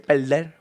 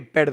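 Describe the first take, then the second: First: The word is said in a marked regional accent. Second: The word is said in a plain standard way. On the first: "they say perder, voy a perder" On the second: "when they say perder"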